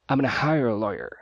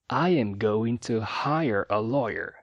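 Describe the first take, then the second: First: 'Gonna' is clipped into an even shorter form. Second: Every word is said fully, with no reduction. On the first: "formas ainda mais reduzidas" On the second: "sem reduções e de forma bem enunciada"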